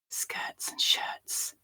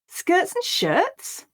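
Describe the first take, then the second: First: It is whispered. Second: It sounds surprised. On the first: "So first we'll whisper it" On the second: "Now we'll say it with surprise"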